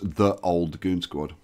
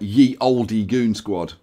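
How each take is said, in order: First: The first word begins with a 'th' sound. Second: The first word begins with a 'y' sound. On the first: This is the historically correct way of saying it. The speaker calls it right. "the proper pronunciation is the old goon squad" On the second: This is the common popular way of saying it. The speaker calls it wrong. "everybody says like ye oldie goon squad"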